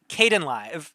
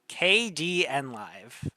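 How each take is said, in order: First: The opening is blended together as one word. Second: The opening is spoken as separate letters. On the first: The speaker calls it wrong. "I was pronouncing it Kdenlive" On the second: The speaker calls it right. "it's based on the uh, Linux uh, software package K D E. So it's KDNLive according to everybody"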